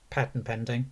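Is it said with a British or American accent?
American. It is said with an American accent.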